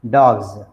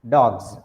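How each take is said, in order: First: The word ends with a buzzing z sound. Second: The word ends with a buzzing z sound.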